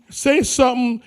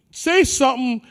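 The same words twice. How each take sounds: The two takes are said the same way.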